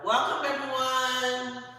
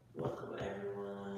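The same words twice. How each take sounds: First: It is said loudly. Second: It is said quietly.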